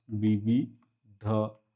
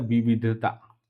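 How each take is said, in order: First: विविधता very slow, as वि-वि-ध-ता with gaps; विविधता dictated piece by piece, softly spaced out; syllable by syllable. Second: Said in the usual way. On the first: Shown as a demonstration. Teacher repeats it in syllables.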